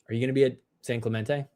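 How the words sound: It sounds disappointed and let down.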